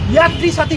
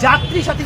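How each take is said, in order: First: The first word begins with a Y sound. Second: The first word begins with a J sound. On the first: This is how the misprinted name reads. The speaker calls it wrong. "সেটা ছাপায় হয়ে গেল ইয়াত্রী সাথী" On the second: This is the name that was actually announced. The speaker calls it right. "যাত্রী সাথী ঘোষণা করেছেন"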